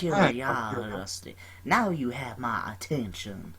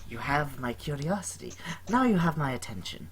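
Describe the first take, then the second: First: It is said in an imitated Southern US accent. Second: It is said in the speaker's plain voice.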